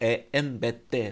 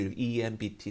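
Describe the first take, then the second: First: The letters are named with Spanish letter sounds. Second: The letters are named with English letter sounds. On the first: "스페인 발음이구나" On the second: "영어식으로"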